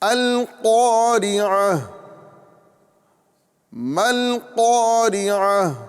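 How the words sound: It stops after the first phrase, ending in h. "वक्फ़ की हालत में ये हाय साकिना से बदल जाती है"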